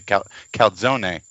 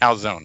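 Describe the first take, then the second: First: The word ends with a pronounced final vowel. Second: The word ends without a final vowel sound. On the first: "if you were really Italian, I think you'd say calzone" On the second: "The last E is silent"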